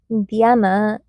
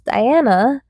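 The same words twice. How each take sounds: First: The name is said with a non-English pronunciation. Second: The name is said with its English pronunciation. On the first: This is the name as used outside English. The speaker calls it wrong. "not Diana" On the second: This is the name as used in English. The speaker calls it right. "my English name is Diana"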